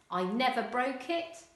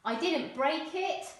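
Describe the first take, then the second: First: "I never broke it" said casually; casual dialect, "never broke"; non-standard English. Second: Said in the usual way. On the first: Shown as a demonstration. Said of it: "non-standard English". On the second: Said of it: "Standard English".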